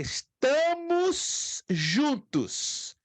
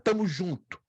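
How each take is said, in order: First: Every syllable and final sound is pronounced. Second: Syllables and final sounds are dropped. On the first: It is formal, grammatical speech. The speaker calls it right. "se eu colocar na gramática" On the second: It is casual, popular speech. The speaker calls it wrong. "É uma expressão muito coloquial"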